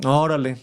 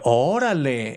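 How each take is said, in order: First: It is said in a flat, sarcastic tone. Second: It is said in an amazed, impressed tone. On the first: The speaker does not really care. "It would be very sarcastic" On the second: The speaker is impressed. "it could be like, wow, or amazing"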